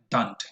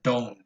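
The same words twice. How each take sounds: First: "don't" said with an unrounded, flat vowel, the wrong way. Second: "don't" said with a rounded O diphthong; correct rounded vowel. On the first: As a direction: show the mistake in "don't". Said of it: "Probably not don't". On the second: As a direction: show the right "don't" with rounded lips. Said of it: "but don't". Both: Shown as a demonstration.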